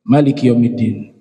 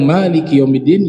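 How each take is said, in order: First: The vowel after the m is short. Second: The vowel after the m is long. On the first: "yang kedua mimnya dibaca pendek" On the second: "Yang pertama mimnya panjang"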